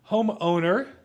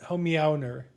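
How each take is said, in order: First: The word is said plainly, with no meow heard. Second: The middle is split to bring out 'meow'.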